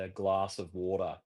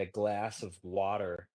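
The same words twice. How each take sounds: First: Glass of water with a broad a and no r on water; own Australian accent. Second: Glass of water with a flat American a and an r on water; slow, drawn American glass of water; American accent. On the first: Shown as a demonstration. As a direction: say it the Aussie way. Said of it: "and I say". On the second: Retold or imitated. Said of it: "In America, you guys say".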